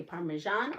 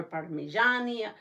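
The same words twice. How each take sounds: First: "Parmesan" with a zh and no final vowel; pronunciation option. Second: "Parmigiani" with an added final vowel; Italian-style pronunciation. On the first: Host asks viewers how they say the cheese, pronunciation option. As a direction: say "Parmesan" as par-muh-ZHAHN. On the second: Host asks viewers how they say the cheese, Italian-style pronunciation. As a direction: say "Parmigiani" as par-muh-ZHAH-nee. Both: Shown as a demonstration. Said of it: "do you say Parmesan or Parmigiani".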